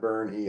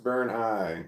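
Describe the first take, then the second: First: The name ends with an 'ee' sound. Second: The name ends with an 'eye' sound. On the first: The speaker calls it wrong. "not Burn E" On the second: The speaker calls it right. "Your name is pronounced Burn I"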